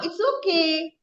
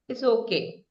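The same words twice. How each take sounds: First: The voice sounds excited and lively. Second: The voice sounds sad and downcast. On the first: The speaker is thrilled about it. "You're excited" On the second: The speaker is disappointed but accepts it. "You say it in a sad tone"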